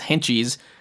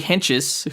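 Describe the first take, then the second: First: The name ends with a long 'eez' sound. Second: The name ends with a short 'ez' sound. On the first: The speaker calls it wrong. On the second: The speaker calls it right.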